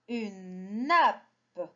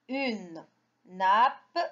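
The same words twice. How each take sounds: First: Said in the usual way. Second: Nappe broken up, na, pause, a separate pe; sounded out. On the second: Shown as a demonstration. Teacher models reading for children, word sounded out in pieces. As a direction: split nappe so the final pe stands alone.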